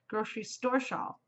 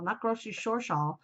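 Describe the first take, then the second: First: "store" with a clear s-t; careful correct pronunciation. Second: "store" slurred to "shore"; mispronounced tongue-twister. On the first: Vlogger corrects her slip on the shawl name, "store" said with st. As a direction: say "store" cleanly, starting st, not sh. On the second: Vlogger shows her slip on the shawl name, "store" said "shore". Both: Shown as a demonstration. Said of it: "I always mess that up".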